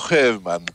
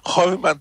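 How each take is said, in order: First: The first vowel sounds like 'e'. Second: The first vowel sounds like 'o'. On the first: The speaker calls it right. "tylko Herman" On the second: The speaker calls it wrong. "nie wymawia się Hormann"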